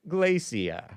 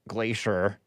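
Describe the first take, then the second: First: It is said in a British accent. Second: It is said in a plain American accent. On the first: It sounds refined. The speaker calls it right. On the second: It sounds unrefined. The speaker calls it wrong.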